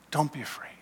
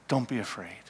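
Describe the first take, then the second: First: Whispered "Don't be afraid", no voice at all; whispering tender reassurance; whispered comfort. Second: Soft, gentle comfort to a frightened man; quietly tender Jesus; tender reassurance. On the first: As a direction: breathe the words like a secret blessing. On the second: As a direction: soothe him, don't startle him. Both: Acted. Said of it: "in compassion and love and forgiveness".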